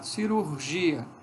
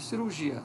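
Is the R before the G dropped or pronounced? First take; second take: pronounced; dropped. First: The R before the g is pronounced. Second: The R before the g is dropped. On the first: "olha como é complicado" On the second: "Que cai o R"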